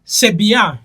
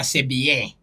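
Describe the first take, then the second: First: "C'est bien" ending in an open "bya"; French-style "C'est bien", lifted in pitch; French pronunciation. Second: African accent, "bien" as "bee-yeh"; French spoken with an African accent. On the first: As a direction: say "bien" as "bee-ya", higher. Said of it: "Kati eri bagamba". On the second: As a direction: lower African-accented take on "C'est bien". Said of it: "Naye Omufirika agamba". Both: Shown as a demonstration.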